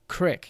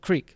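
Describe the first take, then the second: First: It is said in a Utah accent. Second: It is said in a standard accent. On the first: "And say crick" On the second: "instead of creek"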